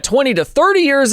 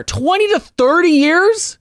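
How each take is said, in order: First: Said in the usual way. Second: Slow, high, rising disbelief; drawn-out incredulous echo; incredulous question. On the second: Real, not acted. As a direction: repeat it high and stretched out, astonished. Repeats the figure in disbelief.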